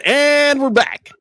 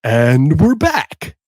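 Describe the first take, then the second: First: High, drawn-out DJ "And we're back"; hammed-up slow radio return; radio host sign-on. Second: Milk every word like a late-night DJ; overdone slow radio announcer; bigger radio host take. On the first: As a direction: announce it slowly like on-air radio. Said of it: "let me try that again". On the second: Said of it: "Or do I do it more?". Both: Shown as a demonstration.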